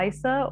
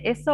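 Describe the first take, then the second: First: "Isa" with a long i, like eye; alternative pronunciation guess. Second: "Issa" with a short i to start; first pronunciation guess. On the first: Host asking author about character's name, "Isa" as EYE-suh. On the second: Host asking author how to say character's name, "Issa" as ISS-uh. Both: Shown as a demonstration. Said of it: "don't know how to pronounce this".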